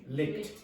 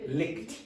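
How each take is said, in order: No difference in how they are said.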